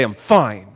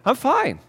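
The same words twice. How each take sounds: First: Low, curt insistence; terse, displeased answer; not really fine. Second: High, upbeat reassurance; breezy, genuine-sounding answer; cheerfully fine. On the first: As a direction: say it pitched down, as if it's anything but fine. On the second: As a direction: say it lightly, pitched well up. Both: Shown as a demonstration. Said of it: "Same exact words, different meaning".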